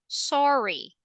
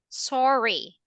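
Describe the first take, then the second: First: The pitch falls at the end. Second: The pitch falls at the end.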